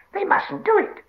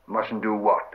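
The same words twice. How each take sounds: First: Very high, loud screeched protest; frightened, angry Gollum. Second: Puzzled question at ordinary pitch; mild surprise. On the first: Gollum protests at Sam's fire, frightened shriek. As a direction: forbid it in a panicked creature shriek. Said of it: "both frightened and angry". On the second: Sam questions the shrieking Gollum, mildly surprised. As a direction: ask back, mildly taken aback. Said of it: "asked Sam in surprise". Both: Acted.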